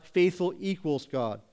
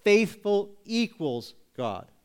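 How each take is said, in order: First: Said in the usual way. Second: "Faithful equals God" slowly, with the stress on "Faithful"; slow, deliberate "Faithful equals God" with "Faithful" stressed; slow emphasis. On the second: Shown as a demonstration. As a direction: draw out "Faithful equals God" and press hard on "Faithful". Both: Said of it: "emphasizes this".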